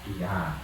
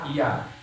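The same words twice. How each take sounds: First: It sounds calm and gentle. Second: It sounds like an angry snap.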